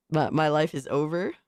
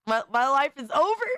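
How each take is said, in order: First: Said in the usual way. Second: Mock despair. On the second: Streamer mourns his ruined image, hammed-up wail. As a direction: ham up the tragedy on the repeat.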